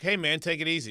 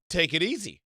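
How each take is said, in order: First: Said in the usual way. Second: "Take it easy" said firmly, pitch peaking on easy; "Take it easy", emphatic retold repeat. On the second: Repeats himself firmly when challenged.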